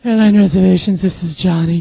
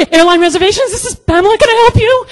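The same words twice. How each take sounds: First: Smooth, unruffled phone greeting. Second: Very high, loud phone greeting; flustered squeal. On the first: Co-worker coolly answering a call, smooth. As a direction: answer smoothly at an easy pitch, projecting. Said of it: "he's so freaking smooth". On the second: Agent answering a call after seeing the twitch, flustered. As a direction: squeak the greeting, barely holding it together. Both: Retold or imitated.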